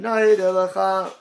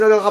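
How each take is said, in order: First: It is said slowly. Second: It is said quickly.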